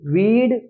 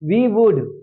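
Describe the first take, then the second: First: It is said as one contracted syllable. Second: It is said as two full words.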